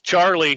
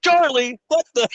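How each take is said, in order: First: Said in the usual way. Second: High, strained cry of sudden outrage; mock triggered outburst. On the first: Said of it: "you were probably like". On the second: Co-host imitates veteran triggered by boss's name, mock outburst. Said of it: "and he's like".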